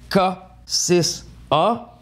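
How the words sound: The letters and number are said in French. "si on prononce en français"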